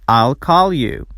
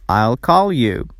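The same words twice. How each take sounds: The two takes are said the same way.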